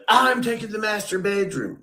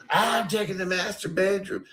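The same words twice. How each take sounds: First: High, smug mock voice of the housemate claiming the best room; mocking Ray. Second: High, smug put-on voice of an entitled housemate; mocking Ray. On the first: Mocking Ray claiming the master bedroom, high and smug. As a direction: sneer it out like a spoiled man grabbing the best room. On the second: Retelling Ray taking the room, high smug mock voice. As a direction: toss it off like it's already yours. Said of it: "And you go".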